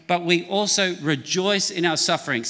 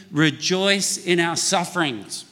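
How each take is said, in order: First: Said in the usual way. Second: Slowed, each word spaced for the room to join; slow unison reading. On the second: Shown as a demonstration. Pastor leading congregation to repeat the verse, slow. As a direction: lead the crowd through it slowly. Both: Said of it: "Say that with me".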